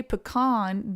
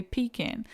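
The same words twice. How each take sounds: First: "pecan" with stress on an open second syllable, KAHN; pecan as puh-KAHN. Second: "pecan" stressed up front, ending in a short kin; pecan as PEE-kin. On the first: Weighing pronunciations for viewers, "pecan" as puh-KAHN. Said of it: "If you say pecan". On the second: Weighing pronunciations for viewers, "pecan" as PEE-kin. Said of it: "then you say pecan". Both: Shown as a demonstration.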